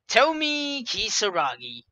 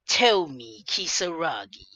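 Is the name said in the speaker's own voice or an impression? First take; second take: own voice; impression. First: It is said in the speaker's own voice. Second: It is said imitating Ida's voice.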